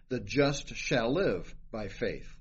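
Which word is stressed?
shall live. The stress is on "shall live".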